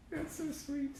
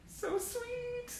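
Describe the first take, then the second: First: High, soft doting coo; cooing again. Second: Very high, soft cooing. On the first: Fan gushing at a clipping, high soft coo. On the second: Fan cooing over an old clipping, high and soft. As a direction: melt over a sweet photo. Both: Real, not acted.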